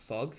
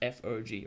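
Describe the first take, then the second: First: It is said as a single word. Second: It is said as three separate letters. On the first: The speaker calls it wrong. "It's not fog" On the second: The speaker calls it right. "it's just f o g"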